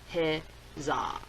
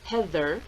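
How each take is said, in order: First: The middle consonant is a 'z' sound. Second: The middle consonant is a 'th' sound.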